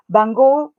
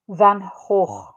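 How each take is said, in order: First: It is pronounced the North American way. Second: It is pronounced the Dutch way. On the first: "We say that in North America" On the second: "the pronunciation in uh, Dutch is Van Gogh"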